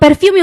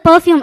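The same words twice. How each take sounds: First: It is said with a plain Tamil-English accent. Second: It is said with a polished, anglicized accent. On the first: The speaker is a village boy. "ஒரு வார்த்தை சொன்னீங்க" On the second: The speaker is a city boy. "City பையனா இருந்தா அவங்க வந்து பெர்ஃபியூம் அப்படின்ற வார்த்தை சொல்லுவாங்க"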